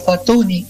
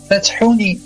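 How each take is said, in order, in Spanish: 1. Ningún sonido parecido a la h sigue a la t. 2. Un sonido parecido a la h sigue a la t. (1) "en español, como la H intercalada no se pronuncia" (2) "en árabe"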